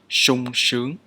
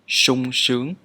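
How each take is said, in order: First: The first consonant is an 'sh' sound. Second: The first consonant is an 'sh' sound.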